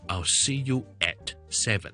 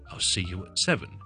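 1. 'at' 这个词读得完整清楚。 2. 'at' 这个词读得轻，而且很快带过。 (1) "我哋就唔会读成咧……咁听落去咧就太古怪啦" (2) "越轻越好嘅"

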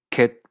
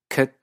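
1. Se pronuncia con acento inglés canadiense. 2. Se pronuncia con acento neozelandés, vocal centralizada. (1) "Canadá" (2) "ciertos neozelandeses"

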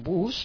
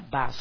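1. La vocal suena como una "u" española. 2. La vocal suena parecida a una "a". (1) "aunque se escribe igual, B-U-S, un bus" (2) "se pronuncia bus. Acordaos de que la U es como si fuera una A"

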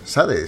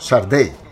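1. El nombre se dice con pronunciación española. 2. El nombre se dice con su pronunciación original. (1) "realmente su nombre no se pronuncia Sade"

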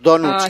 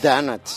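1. Se pronuncia con acento español. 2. Se pronuncia con la lengua echada hacia atrás, al estilo inglés. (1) "Los donuts nosotros" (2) "cuando se habla inglés no se pronuncia, hay que echar la lengua un poco para atrás"

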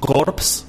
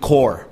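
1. Los sonidos finales p y s se pronuncian. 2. Los sonidos finales p y s son mudos. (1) "los escucho a ustedes decir corpse en vez de decir core" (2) "aunque se escribe a corpse, se pronuncia core"

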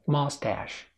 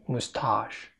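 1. تُنطق بلكنة أمريكية. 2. تُنطق بلكنة بريطانية. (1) "في الأمريكي ماستاش" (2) "البريطاني مستاش"

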